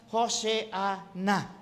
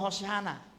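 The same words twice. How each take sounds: First: The word is said slowly and carefully. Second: The word is said quickly and run together. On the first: "Pronounced Hoseana" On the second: "Kaya pag binilisan mo"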